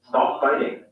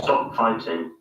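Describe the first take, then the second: First: Tapped t and an unrounded o vowel. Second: Crisp t and a rounded o vowel. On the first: "In the U S" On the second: "In the U K"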